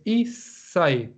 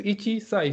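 First: Isai, ichi merged into sai, said slowly; correct form isai. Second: Ichi sai with both words said apart, i-chi then sai; wrong form ichi sai. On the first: Teacher giving the class the right reading isai, slow. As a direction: glide isai into one slow word. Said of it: "sino que es isai". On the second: Teacher showing the class the wrong form ichi sai. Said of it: "no, no es ichi sai". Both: Shown as a demonstration.

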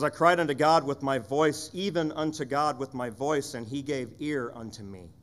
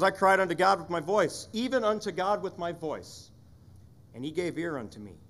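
First: Said in the usual way. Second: Asaph's cry. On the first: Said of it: "he says". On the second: Shown as a demonstration. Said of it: "Asaph says".

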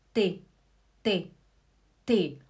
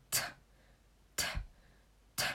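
First: "T" voiced as a syllable "tê", without a puff; Portuguese T. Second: "T" as a sharp puff of air, no vowel; German aspirated T. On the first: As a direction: say "T" as a low "tê". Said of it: "Olha o português". ("T" português, sem sopro) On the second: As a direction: blow out "T" with breath only. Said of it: "Olha o alemão". ("T" alemão, só o sopro) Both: Shown as a demonstration.

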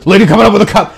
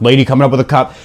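First: Higher, louder repeated alert; hammed-up radio warning; urgent radio call. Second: Plain radio announcement; radio call. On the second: Retold or imitated. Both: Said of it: "this was a radio time of".

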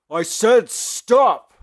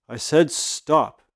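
First: Slow, high furious yell; angry shout. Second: Slow, firm warning; firm command. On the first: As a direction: bellow the order slowly. Hero repeats order, furious. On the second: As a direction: lay down the order slowly. Hero orders the villain. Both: Acted.

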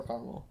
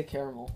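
First: "caramel" as CAR-mel, two syllables. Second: "caramel" as KAIR-uh-mel, three syllables; "caramel" with three beats. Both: Shown as a demonstration. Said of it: "I say caramel or caramel".

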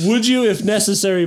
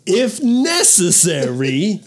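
First: Choppy dramatic pauses, raised pitch; William Shatner style. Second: Slow, drawn-out, higher pitch; slowed dramatic reading. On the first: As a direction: break it up like Shatner. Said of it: "Break it up like William Shatner". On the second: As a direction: stretch it out slowly. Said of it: "Let me slow it down". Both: Pretend.

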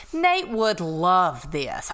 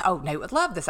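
First: Slow, stretched realization; drawn-out musing. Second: Said in the usual way. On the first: Retold or imitated. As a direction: linger on each word as the thought lands. Repeated nagging thought, first take drawn out.

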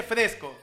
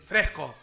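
First: Said in the usual way. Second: "fresco" with the s turned into a Spanish j, "frejco"; Lima aspirated S. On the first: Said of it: "Limeño no dice fresco". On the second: Shown as a demonstration. Host mimics limeño speech, "fresco" said as "frejco". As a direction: say "fresco" lower, as "frej-co". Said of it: "a todas las S".

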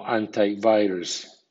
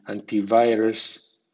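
First: Antivirus with anti ending in an eye sound; anti as AN-tai. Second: Antivirus with anti ending in an ee sound; anti as AN-tee. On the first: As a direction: say antivirus as an-tie-VI-rus. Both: Shown as a demonstration. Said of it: "suena anti o anti".

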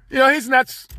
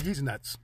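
First: Said in the usual way. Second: Low, soft muttered verdict; quiet mock aside. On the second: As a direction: mutter it under your breath, lower. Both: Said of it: "people be like".

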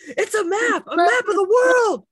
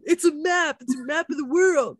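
First: Loud high yell; shouting. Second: Louder, higher mock yell; mock shout. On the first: Retold or imitated. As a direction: yell it out in frustration. Imitating cast member yelling at puzzle. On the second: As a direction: shout it like helping out. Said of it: "[name] trying to help him".

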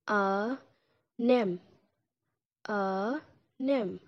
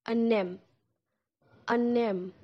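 First: "A, nem" in two parts with a pause; slow, spaced-out "A, nem"; syllables broken apart for learners; split into syllables. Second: "Annem" with a clear final m, ah-nem; my mom in Turkish, spoken for a learner. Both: Shown as a demonstration. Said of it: "you will say it like this".

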